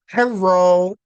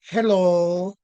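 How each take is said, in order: First: The middle consonant sounds like an R. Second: The middle consonant is a clear L sound. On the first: "there's this R sound in there" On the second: "you hear the L very clearly"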